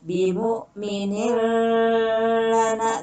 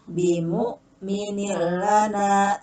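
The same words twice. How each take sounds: First: The sound is held and drawn out. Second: It is read quickly without holding the sound. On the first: The speaker calls it wrong. "tidak boleh ditahan" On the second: The speaker calls it right. "harus sigrah"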